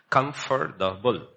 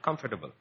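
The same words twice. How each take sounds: First: The word is said slowly, syllable by syllable. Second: The word is said at normal speed.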